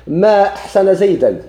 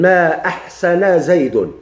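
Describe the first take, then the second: First: زيدا read with -an, louder and slow, ما pushed high; ما أحسن زيدا with final -an, exclaimed; exclamation reading. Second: زيد read with -un, slow, falling, ما stressed; ما أحسن زيد slowly, ending زيدُ in -un; negation reading. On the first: Teacher demonstrating the exclamatory reading, higher and louder. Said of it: "لا، ما تعجبية". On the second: Teacher demonstrating the negative reading, slow and falling. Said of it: "لا، ما نفية". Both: Shown as a demonstration.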